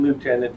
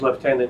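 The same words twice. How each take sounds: First: It is said the way Americans say it. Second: It is said the speaker's own Canadian way. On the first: "lieutenant in the United States" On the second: "My pronunciation of lieutenant"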